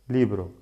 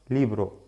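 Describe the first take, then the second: The two takes are said the same way.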